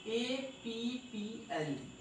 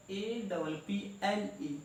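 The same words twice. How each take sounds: First: ए पी पी एल ई, each letter said on its own, slowly; correct spelling. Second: ए डबल पी एल ई, with "double" for the two letters, said slowly; wrong spelling. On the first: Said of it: "उच्चारण कैसे करना था?". (सही तरीका, हर अक्षर अलग-अलग) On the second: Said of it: "जबकि ये गलत था". (गलत तरीके से डबल बोलकर spelling) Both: Shown as a demonstration.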